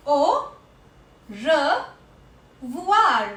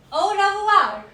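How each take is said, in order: First: Au, then revoir after a long pause, revoir said as re-vwar; syllable by syllable. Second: Said in the usual way. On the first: Shown as a demonstration. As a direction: split Au revoir into two slow parts. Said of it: "O I has a sound of oua". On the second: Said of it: "How do we say bye or goodbye".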